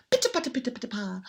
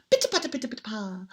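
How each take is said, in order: Both takes have the same delivery.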